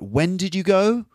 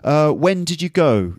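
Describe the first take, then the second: First: The pitch rises at the end of the question. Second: The pitch falls at the end of the question. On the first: Repeating a question that was already answered. "can be delivered with a different sort of intonation" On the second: An ordinary first-time question. "normally when you ask a question, you'll have a certain type of intonation"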